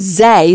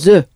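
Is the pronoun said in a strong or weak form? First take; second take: strong; weak. First: A long, strong vowel with stress. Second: A short, weak vowel with no stress. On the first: "it's much stronger" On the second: "there's no stress on that"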